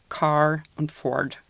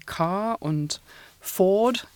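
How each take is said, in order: First: An American accent, with the r pronounced. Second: A British accent, with the r not pronounced.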